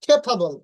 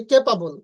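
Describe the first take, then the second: First: "খেফাবল" with aspirated kh and ph; correct pronunciation. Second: "ক্যাপাবল" with plain k and p; no puffs of air in "ক্যাপাবল"; common mispronunciation. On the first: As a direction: stress the airy first syllable of "খেফাবল". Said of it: "উচ্চারণ হবে". ("খেফাবল" খ আর ফ দিয়ে) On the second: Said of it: "আমরা বলি". ("ক্যাপাবল" ক আর প দিয়ে) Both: Shown as a demonstration.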